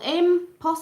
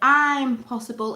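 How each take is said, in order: First: It is said as one unbroken word. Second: There is a short gap after the first syllable. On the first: It says that the thing cannot be done. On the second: It says that the thing can be done.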